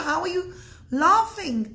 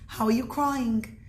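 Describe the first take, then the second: First: Higher pitch, mildly incredulous; baffled question. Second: Said in the usual way. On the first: Retold or imitated. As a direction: act out puzzled companions questioning him. Companions question the laughing rabbi.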